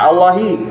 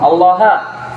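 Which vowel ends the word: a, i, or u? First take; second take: i; a. First: The word ends in a short i vowel. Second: The word ends in a short a vowel.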